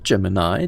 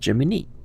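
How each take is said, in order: First: It is said like the constellation's name. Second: It is said unlike the constellation's name. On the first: The speaker calls it wrong. "But it's not Gemini. Gemini is the constellation of stars" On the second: The speaker calls it right. "It's Gemini"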